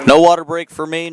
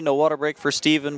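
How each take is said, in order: First: Punched out, higher and louder; a cheeky loud protest; louder playful quip. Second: Said in the usual way. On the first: Real, not acted. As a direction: call it out with a grin. Joking after water break called.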